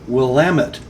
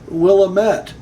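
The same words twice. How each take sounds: First: It is said the way Oregon locals say it. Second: It is said the way outsiders often say it. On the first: The speaker calls it right. "The correct way Oregonians would produce the word" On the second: The speaker calls it wrong. "not Willamette, as I have been guilty of mispronouncing the word"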